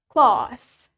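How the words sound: A British accent with a long vowel. "in British accent, the A is longer"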